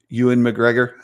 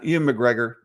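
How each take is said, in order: First: The first name is said like 'Ewan'. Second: The first name is said like 'Ian'. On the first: The speaker calls it right. "but it's E W, right?" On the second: The speaker calls it wrong. "I always pronounce it wrong"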